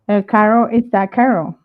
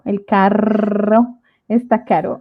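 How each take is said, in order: First: Carro and caro sound exactly the same. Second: Carro and caro sound clearly different. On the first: The speaker calls it wrong. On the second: The speaker calls it right.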